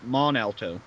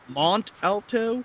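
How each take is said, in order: First: The T at the end of Mont is silent. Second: The T at the end of Mont is sounded. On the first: The speaker calls it right. "actually pronounced" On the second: The speaker calls it wrong.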